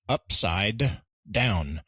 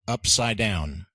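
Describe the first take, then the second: First: Every sound in upside is fully pronounced. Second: The d sound in upside is dropped. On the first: The speaker calls it wrong. "Technically, it's written upside down" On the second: The speaker calls it right. "notice how I'm saying upside down"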